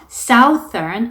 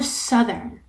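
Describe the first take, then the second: First: The first vowel sounds like the vowel in south. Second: The first vowel differs from the vowel in south. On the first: The speaker calls it wrong. "south라는 단어 때문에 southern이라고 잘못 발음하시는 분들이 많거든요" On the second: The speaker calls it right. "southern이라고 발음되는 단어입니다"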